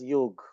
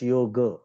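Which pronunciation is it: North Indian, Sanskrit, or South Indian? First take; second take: North Indian; Sanskrit. First: It is said the North Indian way. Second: It is said the Sanskrit way. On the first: The speaker calls it wrong. "North Indians pronounce it as Yog. That's wrong" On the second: The speaker calls it right. "It's just yoga"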